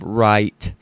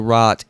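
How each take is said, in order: First: It is said with a standard diphthong. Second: It is said with a Southern flat vowel.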